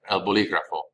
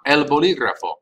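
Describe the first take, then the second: First: El bolígrafo said again, softer, falling; el bolígrafo repeated. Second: El bolígrafo, each Spanish vowel clear, stress on gra. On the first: Teacher repeating El bolígrafo for students to copy. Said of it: "teacher repeats word". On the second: Teacher modelling el bolígrafo for students to repeat. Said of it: "teacher models Spanish word". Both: Shown as a demonstration.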